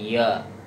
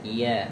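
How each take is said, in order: First: The vowel is thick, with the mouth opened wide. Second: The vowel is thin, with lips only slightly spread. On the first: The speaker calls it wrong. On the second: The speaker calls it right.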